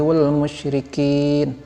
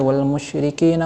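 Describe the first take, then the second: First: It stops after a final bare n. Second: It carries on into the next word.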